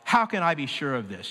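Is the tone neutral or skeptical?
skeptical. It is said in a doubting, skeptical tone.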